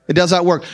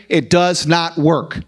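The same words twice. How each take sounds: First: "not" hit hard in the repeat; stress on not. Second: "does" leaned on, slow and heavy; slow it down and press on "does"; stress on does. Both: Real, not acted. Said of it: "I don't care what you say".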